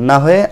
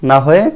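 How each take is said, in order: Both takes have the same delivery.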